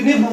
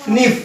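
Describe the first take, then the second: First: Knife said as "kinif", k sounded; literal spelling pronunciation. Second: Knife said as "nif", starting on n; everyday pronunciation, silent k. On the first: Teacher showing the letter-by-letter reading, knife as "kinif". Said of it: "इसको अगर शुद्ध उच्चारण करें". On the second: Teacher asking how we would say it, knife as "nif". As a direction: leave the k off knife, short i. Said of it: "हम बोलते हैं तो क्या बोलेंगे". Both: Shown as a demonstration.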